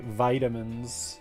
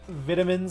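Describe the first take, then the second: First: It is said the American way. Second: It is said the European way.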